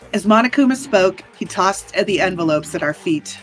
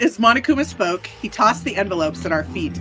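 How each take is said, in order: First: It is read in a put-on character voice. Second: It is read in the speaker's ordinary voice.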